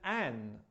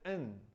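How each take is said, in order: First: The vowel is full, like in 'can'. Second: The vowel is reduced to a short 'uh'. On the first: "an with the strong pronunciation" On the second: "in with the weak pronunciation"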